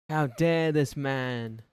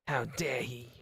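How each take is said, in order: First: Slow, drawn-out and louder, each word weighed; mock outrage. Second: Said in the usual way. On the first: Streamer mocking a viewer's outrage, slow hammed-up indignation. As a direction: stretch it out like a scandalised aristocrat.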